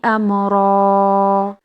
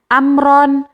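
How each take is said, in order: First: It ends in a lengthened vowel without n. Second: It ends with an n sound after the vowel. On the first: The speaker calls it right. "Ronya dipanjangkan dua harokat" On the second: The speaker calls it wrong. "Bukan dibaca amron"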